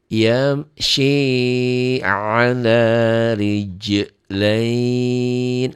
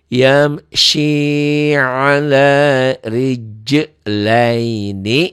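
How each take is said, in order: First: The last word ends on a bare 'n' sound. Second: The last word ends with a full 'ni' syllable. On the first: The reading stops at this word. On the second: The reading continues without stopping.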